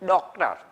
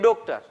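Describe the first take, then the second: First: The first vowel is open and wide. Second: The first vowel is the usual Gujarati vowel. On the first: The speaker calls it right. "ખરેખર શું કહેવાય? ... પહોળી માત્રામાં બોલાતા" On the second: The speaker calls it wrong. "આપણે ગુજરાતીમાં બોલીએ ડોક્ટર"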